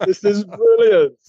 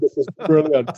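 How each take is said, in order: First: Higher, drawn-out mock amazement; delighted exclamation. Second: Said in the usual way. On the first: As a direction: stretch it out in acted delight. Retold delight, repeated with emphasis.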